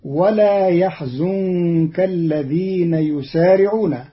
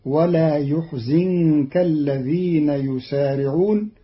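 First: يحزنك as yahzunka, fatha then damma; يحزنك read yahzunka; plain. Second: يحزنك as yuhzinka, damma then kasra; Qalun reading. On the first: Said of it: "قرأ قالون كلمة يحزنك". (يحزنك بفتح الياء وضم الزاي) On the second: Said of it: "بضم الياء وكسر الزاي". (يحزنك بضم الياء وكسر الزاي) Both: Shown as a demonstration.

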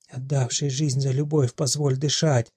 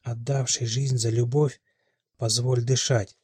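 First: Keen the words of the prophecy; wailed prophecy. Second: Slow, clearly articulated incantation; very distinct. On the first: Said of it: "причитала старуха". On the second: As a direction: lay out each word like a prophecy. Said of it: "произнесена Мелиной очень чётко". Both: A narrator's reading.

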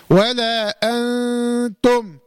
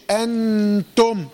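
First: ولا أنتم very slowly, the ن of أنتم a light thin nasal hum; light nasal ikhfa. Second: أنتم with the ن fully pronounced, tongue tip on the gum; wrong clear nun. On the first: Teacher models the light ghunna of أنتم. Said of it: "كما في هذه الكلمة". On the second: Teacher shows the wrong way to say أنتم. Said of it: "خطأ". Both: Shown as a demonstration.

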